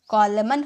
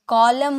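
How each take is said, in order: First: The word ends with an audible n sound. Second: The word ends on m with no n. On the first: The speaker calls it wrong. "कॉलमन होता है? नहीं" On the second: The speaker calls it right. "कॉलम होता है"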